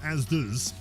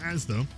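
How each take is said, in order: First: The name ends with an added z sound. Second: The name ends on a plain vowel. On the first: The speaker calls it wrong. "with a Z on the end" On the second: The speaker calls it right. "If you call it Asda, then we can get along"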